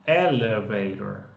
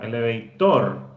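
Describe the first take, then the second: First: The stress is on the first syllable. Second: The stress is not on the first syllable. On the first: The speaker calls it right. "Esa es la fuerza, está en esa primera sílaba" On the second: The speaker calls it wrong. "no, tampoco"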